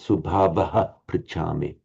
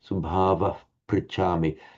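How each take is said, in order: First: An echo vowel follows the first word. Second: No echo vowel follows the first word. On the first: The speaker calls it wrong. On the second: The speaker calls it right. "correctly pronounced"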